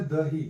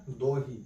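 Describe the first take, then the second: First: Said in the usual way. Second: दोही with an o in the first syllable; Sikhariya Khortha pronunciation. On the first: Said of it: "थोड़ा उच्चारण अगर देखते हैं". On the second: Shown as a demonstration. Teacher shows students how dahi sounds in Khortha, दोही with o. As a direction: say दोही, rounding the first vowel to o. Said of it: "तो दही को क्या बोला जाता है?".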